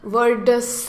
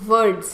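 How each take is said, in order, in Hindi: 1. अंतिम s को पूरे अक्षर की तरह बोला जाता है। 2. अंतिम s एक छोटी, कटी हुई ध्वनि है। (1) "पूरे स की आवाज़ नहीं आएगी। वर्ड्स नहीं है" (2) "आधे स की ही आती है।"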